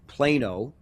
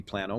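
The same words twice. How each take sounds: First: PLANO said as PLAY-no; long A pronunciation. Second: PLANO said as PLAN-oh; short A alternative pronunciation. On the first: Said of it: "that's how to pronounce it". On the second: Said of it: "could be Plano". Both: Shown as a demonstration.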